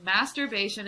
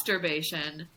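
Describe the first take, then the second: First: Said in the usual way. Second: "masturbation" with the first syllable said as "must"; MUST pun pronunciation. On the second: Retold or imitated. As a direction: say "masturbation" as must-urbation, leaning on MUST. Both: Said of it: "having all the musts in your life".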